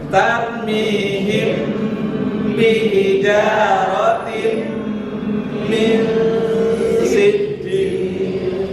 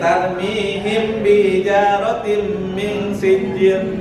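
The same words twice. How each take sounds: First: The nasal sounds are held with a hum. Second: The nasal sounds are short, without a hum. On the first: The speaker calls it right. "Padahal ada gunah beberapa tempat di situ" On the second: The speaker calls it wrong. "Banyak orang yang baca ini"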